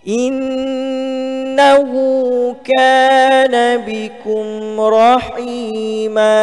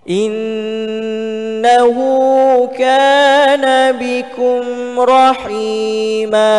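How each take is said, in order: No difference in how they are said.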